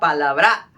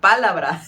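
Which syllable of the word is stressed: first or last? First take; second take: last; first. First: The stress is on the last syllable. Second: The stress is on the first syllable. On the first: "en el último sería palabra" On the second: "Si fuera en el primero sería palabra"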